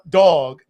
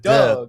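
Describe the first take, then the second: First: It is said with a standard vowel. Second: It is said Baltimore-style, like 'dug'.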